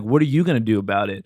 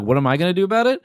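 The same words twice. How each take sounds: First: Low, lightly voiced confrontational stranger; retold challenge. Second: Higher-pitched mock comeback; retold comeback. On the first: Man on the train challenges the storyteller, mildly acted challenge. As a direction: imitate his challenge in a lower voice. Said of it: "And he's like". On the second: Storyteller answers the aggressive man, mock-defiant comeback. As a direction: echo the challenge back, pitched up. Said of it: "And I'm like".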